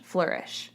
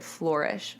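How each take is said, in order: First: Said in the usual way. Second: Flourish said as FLOR-ish, softly; Flourish, first syllable like floor, testing it quietly; odd pronunciation. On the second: Shown as a demonstration. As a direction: try Flourish with an "or" vowel. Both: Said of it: "I said that really weird".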